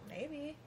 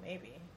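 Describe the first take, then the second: First: The voice sounds open and willing. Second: The voice sounds reluctant and unwilling. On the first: "tone is everything. Like, she could have said, like" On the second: "Or she could have been like"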